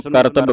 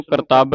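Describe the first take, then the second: First: ਕਰਤੱਬ with short vowels, KAR-tab; correct short vowel. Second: ਕਰਤੱਬ with a long 'aa', kar-TAAB; wrong long vowel. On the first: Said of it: "ਇਸ ਨੂੰ ਕਰਤੱਬ ਪੜ੍ਹਨਾ ਹੈ". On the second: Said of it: "ਨਹੀਂ ਉਚਾਰਨ ਕਰਨਾ". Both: Shown as a demonstration.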